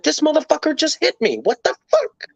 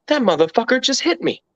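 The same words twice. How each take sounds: First: Much higher, rising to an indignant yelp; outraged disbelief. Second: Raised pitch, disbelieving indignation; stunned outrage. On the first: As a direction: build from shock to a squeaky what the fuck. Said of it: "That was my thought process". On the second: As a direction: spit it out like you can't believe he hit you. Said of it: "all I can think is". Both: Retold or imitated.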